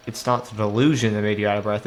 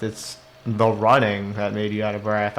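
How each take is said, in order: First: "delusion" stressed in correction. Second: "running" stressed in correction. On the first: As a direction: lean on "delusion" as the rejected cause. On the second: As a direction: lean on "running" as the real cause. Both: Real, not acted. Corrects the character, contrasting two causes.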